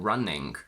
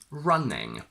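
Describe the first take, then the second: First: It ends in ng plus a k sound. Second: It ends in a plain ng sound. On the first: "or sometimes a k at the end" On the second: "The standard one is ng"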